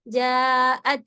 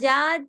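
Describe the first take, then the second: First: A glottal catch splits the vowel in two. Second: The vowel runs straight through with no catch. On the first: The speaker calls it right. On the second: The speaker calls it wrong. "हमजा के बाद जात नहीं"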